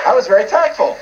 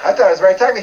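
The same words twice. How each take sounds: First: "I was very tactful" with weight on tactful; tactful claim. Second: "thought" stressed, rising, wry self-correction. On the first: Preacher boasting of his tact, stress on tactful. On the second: Preacher wryly doubting his own tact, stressed thought. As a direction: lean on "thought" to undercut himself. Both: Shown as a demonstration.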